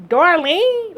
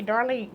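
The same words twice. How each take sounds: First: High, louder stunned echo of the name; surprised. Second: Said in the usual way. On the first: Retold or imitated. Social worker recognizing her name, surprised high and loud. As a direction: repeat the name in disbelief. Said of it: "Like, uh". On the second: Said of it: "And I say".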